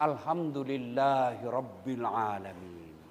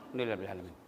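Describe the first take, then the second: First: Slow, lower reverent praise; devout. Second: Alhamdulillah Rabbil Alamin swallowed, much softer and rushed; mumbled. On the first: Parent thanking God for a safe child, slow and reverent. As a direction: say it slowly and fully. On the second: Careless worshipper mumbling thanks, much softer and rushed. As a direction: mumble it fast and low. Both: Shown as a demonstration. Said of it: "Jangan kau bilang".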